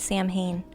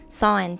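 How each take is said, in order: First: The word is said with m and h sounds. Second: The word is said without m or h sounds. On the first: The speaker calls it wrong. "I know you don't say Sam Hain" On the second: The speaker calls it right. "Sawin, thank you"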